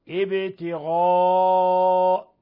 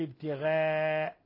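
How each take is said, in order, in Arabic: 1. الغين gh والألف الطويلة long a مفخمتان. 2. الغين gh والألف الطويلة long a مرققتان. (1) "وإنما ابتغاء" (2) "لا نقول ابتغاء"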